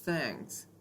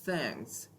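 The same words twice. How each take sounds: First: The th is a soft airy hiss. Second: The same.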